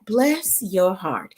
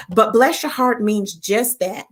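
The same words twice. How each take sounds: First: "Bless your heart" said very slowly and softly; slow southern drawl. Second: Said in the usual way. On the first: Shown as a demonstration.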